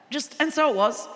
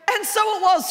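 First: "and so it was" dropped flat and dry; understated. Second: "and so it was" lifted higher, mock-grand; emphatic quote. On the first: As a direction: shrug out "and so it was" flatly, deadpan. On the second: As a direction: say "and so it was" pitched higher, marvelling at it. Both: Shown as a demonstration. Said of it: "the Bible's very understated".

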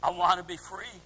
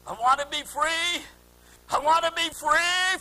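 First: Said in the usual way. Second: Raised, building plea; high imploring cry, growing louder. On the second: Retold or imitated. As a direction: cry out from the depths of the heart. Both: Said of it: "they're crying out".

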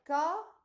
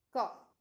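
First: Said in the usual way. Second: "co" as coughed, ending F then T; short, loud "co" closed as coft; final T sound. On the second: Shown as a demonstration. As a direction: model coughed for "co", ED as T. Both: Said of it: "pronunciamos la T".

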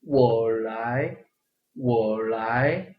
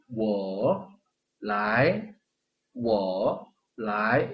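First: "我" pulled low straight into rising "来"; long smooth "我来"; natural sandhi "我来"; big third tone. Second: "我来" very slow, "我" fully dipped; stiff word by word. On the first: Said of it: "큰 삼성으로". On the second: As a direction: break "我来" apart. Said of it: "이렇게 하면 부자연스럽죠". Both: Shown as a demonstration.

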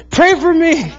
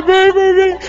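First: Put-on high child's pleading voice; imitating crying child. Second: Put-on much higher, tearful child's plea; imitating sobbing toddler. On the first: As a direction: beg like a crying little boy. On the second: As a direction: plead harder like a distraught toddler. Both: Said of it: "And he's crying".

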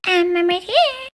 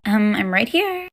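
First: High, drawn-out mocking echo; mocking mimicry. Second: Said in the usual way. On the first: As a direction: parrot the words back in a silly high voice. Mocking echo of Emily's words.

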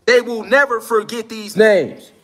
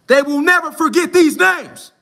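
First: "never" leaned on, said slowly; stress on never. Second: "these" punched, higher and louder; stress on these. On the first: Warning the listeners, weight on "never". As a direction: drag out "never" and land it hard. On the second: Pressing the listeners to remember, "these" shouted out. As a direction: hit "these" hard, raised up high. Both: Shown as a demonstration.

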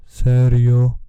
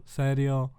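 First: "Serio" boomed out loud and drawn out in a bass voice; bassy voice. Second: Said in the usual way. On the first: Shown as a demonstration. Vlogger showing off his bass on "Serio", booming bassy voice. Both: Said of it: "Fajny basik".

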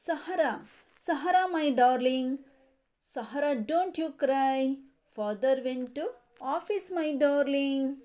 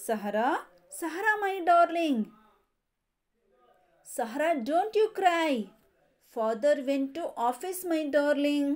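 First: Sing-song nursery rhyme reading; rhyme recitation. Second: Livelier chanted repeat of the rhyme; rhyme recitation again. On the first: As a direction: recite the rhyme steadily for children. Teacher reads rhyme to class. (ಮಕ್ಕಳಿಗೆ ಪದ್ಯ ಓದುವ ಧಾಟಿ) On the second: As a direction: recite it once more with more lift. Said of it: "Once again". (ಮತ್ತೊಮ್ಮೆ ಉತ್ಸಾಹದ ಪದ್ಯ ಪಠಣ) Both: Shown as a demonstration.

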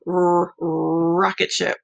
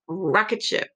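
First: Rocket ship said slowly, leaning on the R. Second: Said in the usual way. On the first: Shown as a demonstration. Teacher stretching the R in rocket ship for a child. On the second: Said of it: "Ooh, a rocket".

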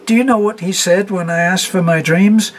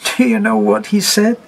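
First: High, louder, rising near-hysterical question; gasping again. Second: Higher, louder breathless question; half-laughing, half-gasping disbelief; gasped out. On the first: A narrator's reading. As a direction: push it higher, laughing through tears. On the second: Acted. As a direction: hysterical gasp. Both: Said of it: "she gasped".

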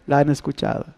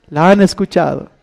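First: La han escuchado repeated much softer and lower; quiet echo. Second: Said in the usual way. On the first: Acted. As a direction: let it fall away as an echo. (repetido en voz baja, como eco)

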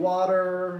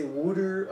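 First: Water said normally; "water" with a clear t sound, WAH-ter; plain water. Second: "wooder" with rounded oo, like Philadelphia; Philly wooder. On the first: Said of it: "some people say water". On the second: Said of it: "and I say wooder". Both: Shown as a demonstration.

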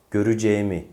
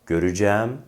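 First: "Göreceğimi" as gö-rü-ce-mi, falling; closed e. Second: "Göreceğim" as gö-rü-cæm, rising; wide-open æ ending on "Göreceğim". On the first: Teacher compares two forms, "Göreceğimi" with closed e. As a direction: narrow e before mi in "Göreceğimi". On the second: Teacher compares two forms, "Göreceğim" with open æ. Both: Shown as a demonstration. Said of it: "bir e farkı var".

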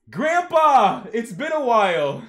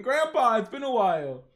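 First: High, very loud holler; exuberant greeting. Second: Milder, high-starting call; exuberant greeting repeated. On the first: Acted. Grandson greets grandpa on the phone, exuberant shout. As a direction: belt out a gleeful hello. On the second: Retold or imitated. Reader retells grandson's greeting to grandpa, toned-down holler. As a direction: retell the holler with less force. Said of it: "We see Jin Mori just laughing".

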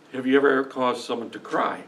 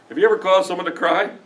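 First: Said in the usual way. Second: "ever" lifted and the whole "Have you ever caused someone to cry?" asked higher, rising at the end; rising question. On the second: Shown as a demonstration. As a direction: push "ever" up and end on a rise, probing the crowd.

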